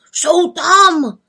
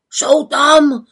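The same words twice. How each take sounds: First: Louder, even higher alarmed caw; crowing cry, rising. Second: Loud, higher alarmed caw; crowing cry. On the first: Raven Krex calling from afar, louder alarm. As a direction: cry it out again, more urgent. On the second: Raven Krex arriving breathless, crying alarm. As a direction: call out the alarm from afar. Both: Acted. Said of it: "krákal už zdaleka".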